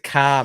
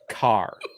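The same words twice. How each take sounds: First: The final R sound is dropped. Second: The final R sound is clearly pronounced. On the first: "It's a car, mate" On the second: "it's very unnatural for us to say car. Like that just never happens in Australian English"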